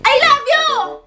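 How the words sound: It is said in an angry tone. "ang last is um angry"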